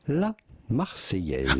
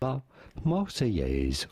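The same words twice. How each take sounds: First: It is said with a French accent. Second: It is said with an English accent.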